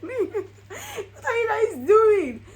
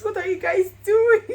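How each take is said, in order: First: Slow, much higher, laughing through tears; drawn-out happy wail; overwhelmed laughing cry at the proposal. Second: Excited cry. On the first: Retold reaction, laughing. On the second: Retold reaction to proposal. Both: Retold or imitated.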